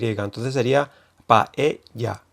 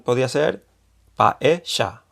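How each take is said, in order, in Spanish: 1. La consonante del medio es un sonido Y. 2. La consonante del medio es un sonido argentino. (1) "que hay yeísmo y se pronuncia con Y" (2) "Si fuese con acento argentino"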